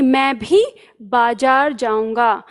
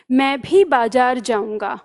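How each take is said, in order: First: मैं भी said slowly, weight on भी; slow and lean on मैं भी; slow emphasis on भी; stress on मैं भी. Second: भी given a light push; light stress on भी. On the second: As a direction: lean a little on भी. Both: Shown as a demonstration. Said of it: "मैं पर जोर डाला है".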